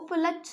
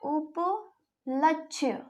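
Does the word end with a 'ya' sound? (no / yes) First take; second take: no; yes. First: The word ends in 'ksh' with no 'ya'. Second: The word ends in 'kshya' with a 'ya'. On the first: The speaker calls it wrong. "उपलक्ष को उपलक्ष ना बोलते हुए" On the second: The speaker calls it right. "अपन क्या बोलते हैं शुद्ध वर्तनी में"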